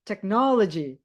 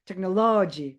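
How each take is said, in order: First: The stress is on the second syllable. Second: The stress is not on the second syllable. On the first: The speaker calls it right. "Pasti kalian ngomongnya harus technology" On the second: The speaker calls it wrong. "Kalian nggak mungkin ngomongnya gini"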